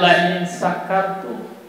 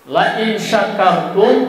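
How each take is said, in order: First: The third word begins with an s sound. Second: The third word begins with a sh sound. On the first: It speaks of being drunk. The speaker calls it wrong. "Shin dirubah menjadi sin. Salah juga" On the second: It speaks of being grateful. The speaker calls it right.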